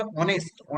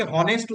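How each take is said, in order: First: Honest with a silent H, starting on the vowel like on-est; correct pronunciation. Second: Honest said with a clear H sound at the start, like hon-est; common wrong pronunciation. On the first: Teacher giving students the right form, silent H in honest. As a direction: drop the H in honest and open straight on the O. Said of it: "এটার উচ্চারণটা হবে honest". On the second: Teacher showing students the common mistake, voiced H in honest. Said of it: "অনেকে honest উচ্চারণ করে". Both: Shown as a demonstration.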